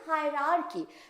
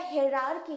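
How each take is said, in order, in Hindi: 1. यह शब्द 'high' ध्वनि से शुरू होता है। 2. यह शब्द 'hay' ध्वनि से शुरू होता है। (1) "हम लोग बोलते हैं हायरार्की" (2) "इसको अगर हम लिखते हैं तो ये प्रोनाउंसिएशन क्या हो जाएगा? हेरारकी हो जाएगा"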